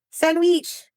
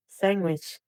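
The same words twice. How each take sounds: First: "Sandwich" as "sand-weech", pitched high, mock Arabic accent. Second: Said in the usual way. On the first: Shown as a demonstration. Streamer teaching chat the Arabic word, mock Arabic accent. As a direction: exaggerate an Arabic accent, higher. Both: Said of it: "how to say sandwich in Arabic".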